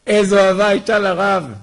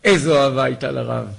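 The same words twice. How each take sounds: First: "איזו אהבה הייתה לרב" said again higher and louder, stress on איזו; emphatic repeat. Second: Said in the usual way. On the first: Real, not acted. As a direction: call out the line a second time with rising fervour. (חזרה נרגשת בקול רם, דגש על "איזו")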